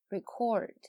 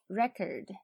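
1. 重音在第二个音节。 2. 重音在第一个音节。

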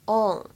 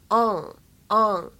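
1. 英式口音，元音偏后，口型较小。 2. 美式口音，元音偏前，发音更夸张。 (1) "英式发音呢，稍微往后靠一些，口型偏小" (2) "美式发音呢，发音部位会偏前，更加夸张一些"

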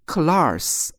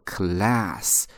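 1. 这个元音是卷舌的，舌头向上卷。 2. 这个元音不卷舌，舌头是平的。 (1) "美国人不会读class，因为它没有字母R" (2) "美国人读作class"

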